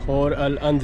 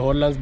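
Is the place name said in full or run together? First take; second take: in full; run together. First: Each part of the name is said separately. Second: The parts are run together quickly into one word.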